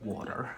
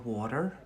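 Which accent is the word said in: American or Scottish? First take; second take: American; American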